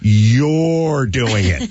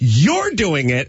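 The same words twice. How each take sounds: First: It is said slowly and drawn out. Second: It is said hard and forcefully. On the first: "and then the next one you slow down" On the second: "The first one you go hard"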